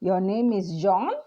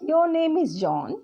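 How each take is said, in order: First: The pitch rises high at the end. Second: The pitch falls low at the end. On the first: It asks whether this is true. "Question mark... high final pitch... rising intonation" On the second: It states a fact without asking. "So it is falling"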